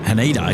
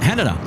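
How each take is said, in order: First: It is said unlike Canada with an H. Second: It is said like Canada with an H. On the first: This is how an outsider would say it. The speaker calls it wrong. "Haneda is what I used to call it" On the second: This is how the locals say it. The speaker calls it right. "just like Canada, but with a H"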